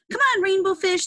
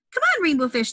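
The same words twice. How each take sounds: First: High playful call to a friend. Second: High playful call. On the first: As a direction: call them over to play. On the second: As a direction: call him over to play. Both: Acted. Fish calling out in story.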